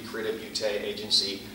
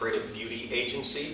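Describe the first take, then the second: First: Beauty is said as the French word beauté. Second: Beauty is said as the ordinary English word. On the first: "if you are pronouncing our name as it's written in French" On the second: "I do pronounce it Creative Beauty Agency, just like the word beauty"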